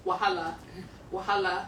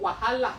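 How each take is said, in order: First: Wahala said the common colloquial Nigerian way, falling at the end; colloquial pronunciation. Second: Wahala said with a Nigerian accent, Yoruba style. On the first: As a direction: say Wahala the generally accepted way. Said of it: "a more colloquial or generally acceptable way of pronouncing it is". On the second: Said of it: "I'm gonna use my best Nigerian accent right now". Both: Shown as a demonstration.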